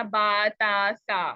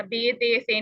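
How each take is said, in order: First: बा, ता, सा ending in long open "aa"; correct Arabic reading. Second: बे, ते, से ending in long "ay"; wrong Urdu reading. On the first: Teacher modelling Arabic letters for students, "aa" endings. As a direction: say बा, ता, सा as "baa, taa, saa". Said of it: "आ वाली sound के साथ पढ़ना". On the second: Teacher warning students off the Urdu habit, "ay" vowels. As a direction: say बे, ते, से as "bay, tay, say". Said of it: "नहीं पढ़ना". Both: Shown as a demonstration.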